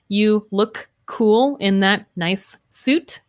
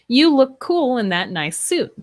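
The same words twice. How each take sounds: First: The words are kept separate, not blended. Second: The words are blended and linked together.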